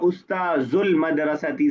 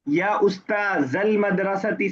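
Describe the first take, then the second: First: The word ustadh ends with a 'u' vowel. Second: The word ustadh ends with an 'a' vowel. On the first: The noun is in the nominative case. The speaker calls it wrong. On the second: The noun is in the accusative case. The speaker calls it right.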